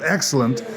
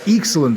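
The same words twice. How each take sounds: First: It is said without a New Zealand accent. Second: It is said with a New Zealand accent.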